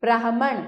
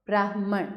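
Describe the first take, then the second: First: ब्राह्मण broken up as "braa-ha-man"; louder ब्राह्मण with the h-m cluster split; misspelt extra vowel. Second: Said in the usual way. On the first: Shown as a demonstration. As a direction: add a vowel after the h in ब्राह्मण. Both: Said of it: "ये शुद्ध करके लिखा".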